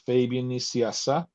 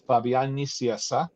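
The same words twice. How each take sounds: First: The name is pronounced the English way. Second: The name is pronounced the Spanish way. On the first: "In English" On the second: "in Spanish"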